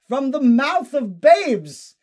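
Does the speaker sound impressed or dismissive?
impressed. It sounds impressed and sincere. The child said something truly wise. "oh, Jesus, you're right"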